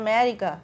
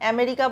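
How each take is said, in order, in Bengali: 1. শব্দ থেকে শুরুর স্বরধ্বনিটি বাদ যায়। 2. শব্দটি শুরুর স্বরধ্বনি দিয়েই শুরু হয়। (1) "অ্যা বলে না, বলে ম্যারিকা" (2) "আমাদের মতন আমেরিকা"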